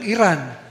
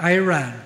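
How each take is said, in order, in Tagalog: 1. Binibigkas ito nang walang pagbigkas na Amerikano. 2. Binibigkas ito nang may pagbigkas na Amerikano. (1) "Tulad yung Iran" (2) "nagiging Iran"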